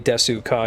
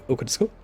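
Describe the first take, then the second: First: The u in desu is fully voiced. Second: Said quickly with the u in desu dropped. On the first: The speaker calls it wrong. "you wouldn't say like" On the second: The speaker calls it right. "You say okutsuko really, really quickly"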